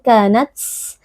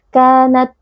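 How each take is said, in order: First: The final t has a strong puff of air. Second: The final t has no air released at all. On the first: "Tidak boleh berlebihan" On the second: "tidak boleh juga tidak keluar sama sekali hamasnya"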